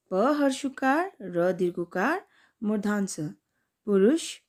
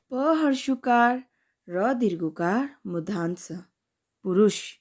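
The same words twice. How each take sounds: The two takes are said the same way.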